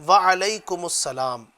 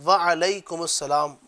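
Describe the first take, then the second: No difference in how they are said.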